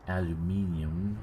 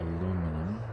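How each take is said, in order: First: It is said the British way, five syllables. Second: It is said the American way, four syllables.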